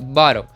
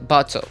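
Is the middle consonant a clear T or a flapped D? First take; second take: flapped D; clear T. First: The middle T is flapped like a D. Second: The middle T is a clear, stressed T. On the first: This is the American way, not the British. "você não vai ver o inglês, é, o britânico falando bottle" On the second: This is the British way. "você vai ver ele falando bottle"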